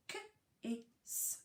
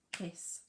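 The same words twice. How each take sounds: First: K-is split into k and a long is; segmented word. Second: Said in the usual way. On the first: Shown as a demonstration. Teacher to reception class, sounding out k-is. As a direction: sound out k-is slowly. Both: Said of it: "I say kiss and you say k-is".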